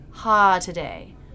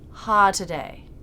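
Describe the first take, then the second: Both takes have the same delivery.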